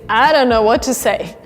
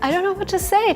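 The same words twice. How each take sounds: First: It sounds puzzled and confused. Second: It sounds pleasantly surprised and delighted. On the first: The speaker doesn't understand what is going on. The speaker calls it wrong. "this sounds like you don't actually understand what's going on" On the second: The speaker is overwhelmed with gratitude. The speaker calls it right. "When you get really surprised, but in a good way"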